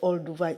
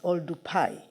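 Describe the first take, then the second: First: The last syllable begins with a V sound. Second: The last syllable begins with a P sound. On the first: This is the written form outsiders adopted. The speaker calls it wrong. "they decided to put V instead of P" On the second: This is how the local people say it. The speaker calls it right. "The proper pronunciation"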